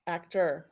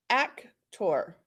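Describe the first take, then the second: First: Said in the usual way. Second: "Actor" as AK-TOR, with a full "or"; "Actor" sounded out, AK, then TOR; spelled-out "or" ending. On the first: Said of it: "it's doctor, tractor, and actor". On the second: Shown as a demonstration. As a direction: say "Actor" in two parts, ending like "tore". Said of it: "you will hear people say".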